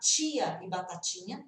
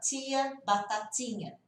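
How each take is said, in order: First: The t sounds like ch, as in many regions. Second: The t is a plain t without ch.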